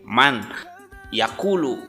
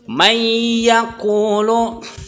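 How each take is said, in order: First: The n is heard separately before yakulu. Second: The n merges into the following y sound. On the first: "man sendiri, yakulu sendiri" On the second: "harus diidghamkan"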